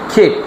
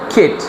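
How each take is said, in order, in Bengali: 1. স্বরধ্বনিটি ছোট করে, হ্রস্ব করে বলা হয়। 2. স্বরধ্বনিটি ছোট করে, হ্রস্ব করে বলা হয়।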